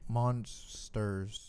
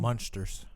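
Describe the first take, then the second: First: The middle consonant sounds like a plain s. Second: The middle consonant sounds like sh. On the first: The speaker calls it right. "got it" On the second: The speaker calls it wrong. "I don't know why you're putting an S and an H in the middle of the word"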